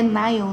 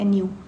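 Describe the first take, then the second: First: The vowel sounds like 'eye', as in Nile. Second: The vowel sounds like 'ee', as in Neel. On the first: This is how it is read in the United States. "nos Estados Unidos, Nil se lê Nile" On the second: This is how it is read in Brazil. "Mas estamos no Brasil, né? É Nil"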